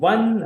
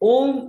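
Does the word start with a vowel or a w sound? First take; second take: w sound; vowel. First: The word starts with a w sound. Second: The word starts with a plain vowel sound. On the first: The speaker calls it right. "ಒನ್ ಅಂತ pronounce ಮಾಡ್ತೀವಿ" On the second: The speaker calls it wrong. "ನಾವು ಓಮ್ ಅಂತ pronounce ಮಾಡೋದಿಲ್ಲ"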